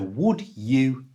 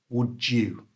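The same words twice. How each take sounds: First: The d and y are said separately. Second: The d and y merge into a j sound.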